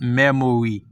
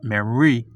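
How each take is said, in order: First: Every syllable is pronounced fully. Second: A middle syllable is swallowed. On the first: The speaker calls it wrong. "It's not memory" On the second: The speaker calls it right. "It's memory"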